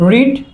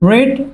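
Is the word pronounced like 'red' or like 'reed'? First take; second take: reed; reed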